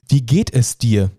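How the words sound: The question sounds sincere and caring.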